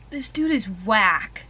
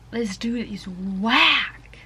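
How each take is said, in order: First: Said in the usual way. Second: WHACK stretched out long and slow; drawn-out emphasis. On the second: Real, not acted. Reader judging a book character, drawn-out emphasis on WHACK. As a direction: drag out "whack" at half speed.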